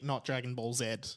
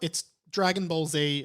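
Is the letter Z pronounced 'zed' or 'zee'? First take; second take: zed; zee. First: Z is pronounced 'zed', Australian style. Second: Z is pronounced 'zee', American style.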